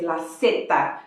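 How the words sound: Zeta begins with a clear S sound. This is how it is said in Latin America.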